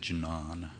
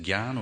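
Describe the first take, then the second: First: The word begins with a jn sound. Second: The word begins with a gy sound. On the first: "jnana rolls off the tongue" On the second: "Prabhupada pronounces it Gyan"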